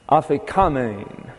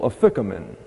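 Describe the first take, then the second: First: The stress is on the next-to-last syllable. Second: The stress is on the second syllable. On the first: This is the original Greek pronunciation. "the accent here is on the penultimate" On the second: This is the usual English habit. "we would tend to accent the second syllable"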